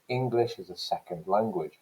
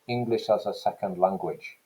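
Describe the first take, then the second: First: A few syllables are stressed more than others. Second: Every syllable gets equal stress, sounding staccato. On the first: "This is British English. I'm putting the stress here on ing and the second" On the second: "I'm giving just about equal stress to each syllable. So it's going to sound much more staccato"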